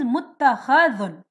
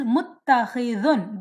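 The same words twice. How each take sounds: First: Muttakhadhun with an 'a' in the third syllable; passive-participle muttakhadhun, a-vowel after kh; fatha vowel. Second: Muttakhizun with an 'i' in the third syllable; active-participle muttakhizun, i-vowel after kh; kasra vowel. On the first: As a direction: say muttakhadhun with an open 'kha'. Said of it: "If it is a maf'ul". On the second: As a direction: say muttakhizun with a clear kasra, 'khi'. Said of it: "There is a kasra". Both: Shown as a demonstration.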